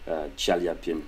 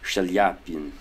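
First: The name begins with a 'ch' sound. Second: The name begins with a 'sh' sound. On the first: The speaker calls it wrong. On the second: The speaker calls it right.

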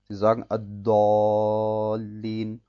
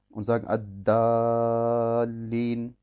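First: The first consonant is a dark, heavy D. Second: The first consonant is a light, thin D. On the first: "ein Dal aus, das dunkel ist" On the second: "ein Dal aus, das hell ist, Muraqqaq"

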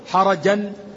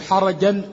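First: The vowel after the r is a. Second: The vowel after the r is i. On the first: It means constricted. "بفتح الحاء والراء" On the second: It means sinful. "بفتح الحاء وكسر الراء"

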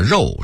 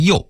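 First: It is said in standard Mandarin pronunciation. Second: It is said with a Jiaodong accent.

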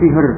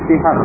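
First: The h is a light, plain breath sound. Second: The h is a harsh, breathy throat sound. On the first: The speaker calls it wrong. "bukan sihir" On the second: The speaker calls it right. "Jadi sihir itu dengan ha, bukan dengan ha"

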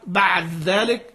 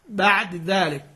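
First: The final consonant merges completely into the next word. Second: The final consonant keeps a brief, partial vowel trace. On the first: "لك فيه الإدغام المحض" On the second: "ولك فيه الاختلاس"

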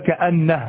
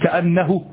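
First: The final pronoun ends with no vowel at all. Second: The final pronoun ends in a short u vowel. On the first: The speaker calls it right. "لابد أن تقول كأنه" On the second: The speaker calls it wrong. "يعني بالضمة فقط، هكذا فقط بالضمة نصف حركة"

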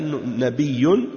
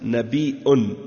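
First: The middle has a doubled y sound. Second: The middle has a glottal stop. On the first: "avec la shadda nabiyun" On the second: "avec la hamza nabiun"

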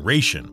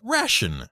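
First: It uses the older, pre-World War I vowel. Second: It uses the newer, post-World War I vowel. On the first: This was the accepted pronunciation before World War I. "that first pronunciation, ration, was actually the correct pronunciation until around World War I" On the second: This pronunciation became standard after World War I. "when the American military decided it was pronounced ration"

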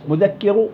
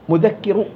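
Both takes have the same delivery.

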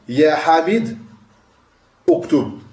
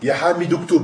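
First: The words are separate and the first vowel stays. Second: The words are linked and the first vowel drops.

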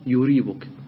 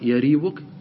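First: The first syllable has the vowel 'u'. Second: The first syllable has the vowel 'a'. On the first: "ضم الياء" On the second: "فتح الياء"

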